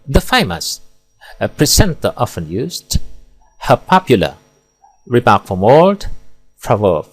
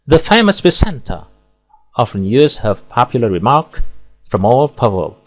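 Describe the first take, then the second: First: There are pauses inside phrases, such as after 'famous'. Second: There are pauses only between whole phrases. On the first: The speaker calls it wrong. "di sini salah meletakkan jeda sehingga rancu dan tidak bermakna" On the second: The speaker calls it right. "Di sini pemenggalan tepat dan ideal. Di sini pemenggalan per frasa"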